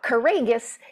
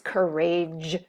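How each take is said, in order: First: The g is pronounced hard, as in go. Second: The g is pronounced soft, as in gem. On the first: The speaker calls it wrong. "It's not courageous" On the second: The speaker calls it right. "it's courageous"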